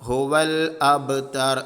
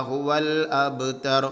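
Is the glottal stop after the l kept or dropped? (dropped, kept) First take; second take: kept; kept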